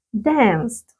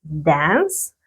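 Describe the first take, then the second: First: DANCED with a t after the s; model past form. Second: DANCE ending on an s sound, pitch rising; model base form. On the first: Teacher shows students the ED ending, model past form DANCED. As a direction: add a crisp final t to DANCED. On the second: Teacher models the present verb for students, model base form DANCE. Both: Shown as a demonstration. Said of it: "ahora está con la terminación E D".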